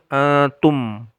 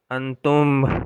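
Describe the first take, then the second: First: The final m is voiced with no escaping breath. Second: The final m is breathy with air escaping. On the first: The speaker calls it right. "tidak ada nafas yang keluar" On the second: The speaker calls it wrong. "Kalau ada nafas yang keluar"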